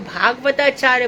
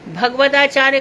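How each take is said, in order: First: The first vowel is long. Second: The first vowel is short. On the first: The speaker calls it right. "भागवताचार्य बोलो ना" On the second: The speaker calls it wrong. "भगवताचार्य कहाँ से आ जाता है"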